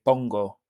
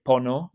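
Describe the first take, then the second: First: Pongo with the g sounded, pon-go; correct form pongo. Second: Pono, said as the wrong form. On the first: Teacher giving the right form pongo. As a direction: say pongo, hitting the g clearly. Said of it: "we say pongo". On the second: Teacher showing the wrong form pono. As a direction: say pono as the mistake to avoid. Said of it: "We don't say pono, we say pongo". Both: Shown as a demonstration.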